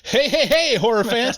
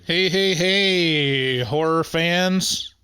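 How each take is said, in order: First: It is said with high, lively energy. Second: It is said with low, flat energy. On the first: The speaker calls it right. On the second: The speaker calls it wrong.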